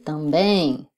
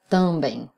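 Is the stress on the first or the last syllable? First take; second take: last; first. First: The stress is on the last syllable. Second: The stress is not on the last syllable. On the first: The speaker calls it right. "on dit também" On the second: The speaker calls it wrong. "On ne dit pas também"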